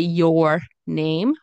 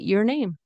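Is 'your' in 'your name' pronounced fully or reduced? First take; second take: fully; reduced. First: The word 'your' is said with a full vowel. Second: The word 'your' is said with a reduced vowel. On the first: "we can say" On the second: "it's easier to say"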